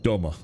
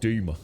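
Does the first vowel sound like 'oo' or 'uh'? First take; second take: uh; oo. First: The first vowel sounds like 'uh'. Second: The first vowel sounds like 'oo'. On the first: This is how an outsider says the name. "when I call it Dummer" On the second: This is how people there say the name. "they pronounce it Doomer"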